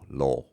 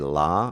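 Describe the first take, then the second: First: The vowel is a rounded o sound. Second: The vowel is an open ah sound. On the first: "modern British English, it's an o" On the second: "Some Americans say la"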